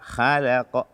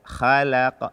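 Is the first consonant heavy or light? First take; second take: light; light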